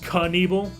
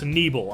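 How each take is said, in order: First: The first K is pronounced. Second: The first K is silent. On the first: "I don't think it's Knievel" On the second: "I'm pretty sure it's Nebel... the K is silent"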